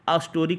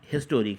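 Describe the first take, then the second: First: The word starts with a vowel, no h. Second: The word starts with an h sound. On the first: The speaker calls it wrong. "अस्टोरिक नहीं है" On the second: The speaker calls it right. "हिस्टोरिक है, हिस्टोरिक हा से शुरू है"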